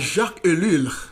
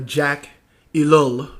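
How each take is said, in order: First: The name is said with a French pronunciation. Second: The name is said with an English pronunciation. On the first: "the uh, French writer" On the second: "as I guess they would pronounce it in English"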